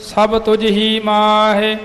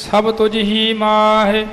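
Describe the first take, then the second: No difference in how they are said.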